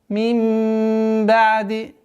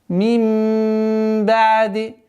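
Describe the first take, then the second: No difference in how they are said.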